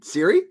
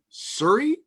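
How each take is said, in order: First: The first syllable sounds like 'see'. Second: The first syllable sounds like 'sir'. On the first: The standard way of saying the name. The speaker calls it right. "You mean Siri?" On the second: A regional way of saying the name. The speaker calls it wrong. "Are you saying Surrey or the uh, or the the correct one?"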